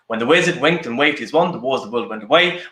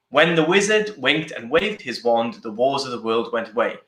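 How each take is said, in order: First: It is said at a medium pace. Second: It is said at a slow pace.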